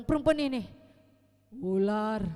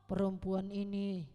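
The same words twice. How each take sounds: First: Loud, pointing-the-finger retort; louder blaming Adam. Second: Adam blaming, low. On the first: Adam passes the blame to the serpent, louder. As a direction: toss the blame onward. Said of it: "Lalu bilang". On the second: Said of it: "Tuhan bilang". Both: Retold or imitated.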